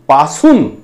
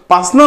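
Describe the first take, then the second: First: The word is said in full with both vowels. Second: The middle vowel is dropped, giving a shortened form. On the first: This is the standard form. The speaker calls it right. "पासून म्हणायचं" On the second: This is the rural colloquial form. The speaker calls it wrong. "पासनं नाही"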